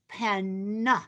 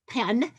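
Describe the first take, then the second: First: The word is said slowly with careful enunciation. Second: The word is said quickly and casually.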